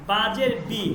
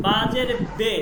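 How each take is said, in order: First: "বি" with an ee vowel; "বাজের বি" spelt out slowly, ending in ee; Arabic-style zer. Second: "বে" with an ay vowel; "বাজের বে" spelt out, ending in a held e; Persian-style zer. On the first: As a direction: say "বি" as bee, the Arabic way. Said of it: "আমি normally আরবিতে". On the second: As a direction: say "বে" as bay, not bee. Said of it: "তখন আপনাকে উচ্চারণ করতে হবে". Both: Shown as a demonstration.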